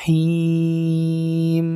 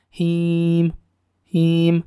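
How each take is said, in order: First: Him chanted long, final m humming on; properly held ending. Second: Him chanted with the final m cut short; released too soon. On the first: Teacher shows how it should be, him held long. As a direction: stretch the i in him and sustain m. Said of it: "Nah, harusnya". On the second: Teacher shows what not to do, Him released early. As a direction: end Him early, little hum on m. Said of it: "Jadi nggak langsung dilepas". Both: Shown as a demonstration.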